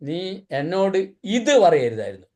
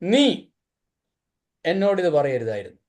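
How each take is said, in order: First: The word ഇത് is stressed. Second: The word നീ is stressed. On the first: The problem is what was said. "ഇത് പറഞ്ഞുകൊണ്ട പ്രശ്നം" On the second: The problem is who said it. "നീ പറഞ്ഞുകൊണ്ട പ്രശ്നം"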